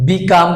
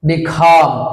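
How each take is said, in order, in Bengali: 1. c ধ্বনিটি আনঅ্যাসপিরেটেড। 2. c ধ্বনিটি জোরালো aspirated. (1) "বিকাম বলছি আমরা" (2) "এক্সাক্ট প্রনাউন্সিয়েশন হবে বিখাম"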